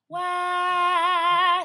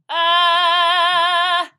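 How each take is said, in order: First: High, airy sung "wah"; an airier, wider "wah". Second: Said in the usual way. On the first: Shown as a demonstration. Coach shows the right airy middle-voice wah. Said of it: "It's an airier sound". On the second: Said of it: "It's like not".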